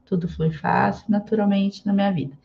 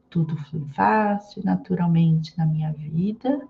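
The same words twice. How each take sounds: First: It is said at a normal pace. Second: It is said slowly and drawn out.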